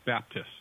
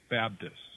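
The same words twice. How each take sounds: First: It is said in a standard, non-Southern way. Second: It is said in a Southern US accent.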